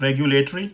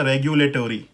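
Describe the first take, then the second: First: रेगुलेटरी as reg-yu-lay-tree, rising; British pronunciation. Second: रेगुलेटरी as reg-yu-lay-tor-ee, falling; full tory in रेगुलेटरी; American pronunciation. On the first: Teacher contrasts British with American, British pronunciation. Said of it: "ट्री करके use हो रहा". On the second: Teacher contrasts British with American, American pronunciation. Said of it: "American pronunciation में हो जाएगा". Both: Shown as a demonstration.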